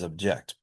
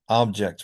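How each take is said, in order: First: The stress is on the second syllable. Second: The stress is on the first syllable. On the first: It is used as a verb. "verbs have it on the second syllable" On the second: It is used as a noun. "nouns that have primary stress on the first syllable"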